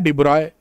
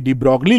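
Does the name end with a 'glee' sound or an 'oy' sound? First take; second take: oy; glee. First: The name ends with an 'oy' sound. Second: The name ends with a 'glee' sound. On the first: This is how the name is actually read. The speaker calls it right. "और पढ़ना क्या है? डिब्रॉय" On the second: This is how it looks when read from the spelling. The speaker calls it wrong. "डिब्रॉगली लिखा हुआ है"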